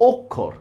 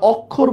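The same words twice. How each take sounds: First: অক্ষর with a closed first "o"; correct pronunciation. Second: অক্ষর with an open first vowel, "awkkhor"; mistaken pronunciation. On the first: Teacher corrects the mistake, অক্ষর as "okkhor". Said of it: "এটা হবে". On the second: Teacher shows the common mistake, অক্ষর as "awkkhor". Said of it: "আসলে কিন্তু অক্ষর হবে না". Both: Shown as a demonstration.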